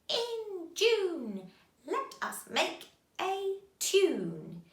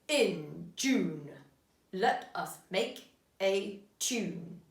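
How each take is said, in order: First: It is said in a cackling witch voice. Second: It is said in a stern policeman voice. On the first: "Can you say it in a witch's voice?" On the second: "Can you say it in a policeman's voice?"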